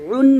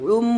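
First: The syllable ends with an n sound. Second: The syllable ends with an m sound. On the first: The speaker calls it wrong. "উন না বলে" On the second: The speaker calls it right. "বলতে হবে উম"

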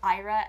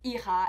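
First: The name is pronounced in an English manner. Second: The name is pronounced in a French manner. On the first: This is how the owner of the name says it. The speaker calls it right. "instead of" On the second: This is how people in Quebec say it. The speaker calls it wrong. "people have always mispronounced my name"

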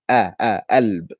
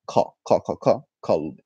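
First: The word begins with no k sound. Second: The word begins with a k sound. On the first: This is the Cairo form. "In Cairo, we say alb" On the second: This is the standard Arabic form. "In standard, the word for heart is kalb"

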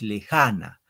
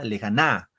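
First: The stress is on the second syllable. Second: The stress is on the third syllable. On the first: The speaker calls it right. "Es lejana" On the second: The speaker calls it wrong. "Si Fren la na"

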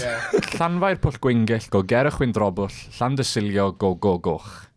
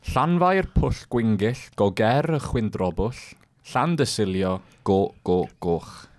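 First: The name is said at a quicker pace. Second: The name is said at a slower pace.

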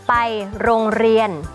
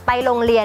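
First: The consonant is a trilled r sound. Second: The consonant is an l sound. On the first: The speaker calls it right. "เรากระดกลิ้นปุ๊บเนี่ยมันก็จะเป็นรอเรือ" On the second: The speaker calls it wrong. "คุณก็จะเขียนเป็นลอลิง"

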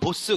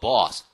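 First: The vowel stays a short, pure o. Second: The vowel starts as o and opens toward ah. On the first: The speaker calls it wrong. "우리는 보스 그럴 때" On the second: The speaker calls it right. "미국 애들은 그걸 저기 어떻게 해버려? ... 오로 시작해서 쫙 넘어가면서"

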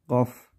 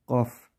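First: The name begins with a G sound. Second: The same.

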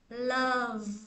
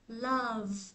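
No difference in how they are said.

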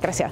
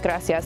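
First: The word is said quickly and clipped. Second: The word is said fully and evenly. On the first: "they're like gracias. And it's just like super fast" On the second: "instead of saying like gracias"

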